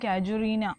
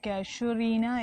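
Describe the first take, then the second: First: The second consonant is a 'j' sound. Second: The second consonant is a 'sh' sound. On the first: This is how everyone actually says it. "എന്നാണ് എല്ലാവരും പറയുന്നത്" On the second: This follows how the name is written. "എന്നാണ് എഴുതുന്നതെങ്കിലും"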